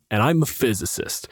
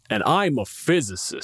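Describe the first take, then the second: First: Said in the usual way. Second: Said as a haughty put-down; And I'm a physicist said with a dismissive, superior edge; smug dismissive. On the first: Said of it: "But because of the tone". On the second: Shown as a demonstration. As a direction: make it sound like a cold brag. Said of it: "they hear it as".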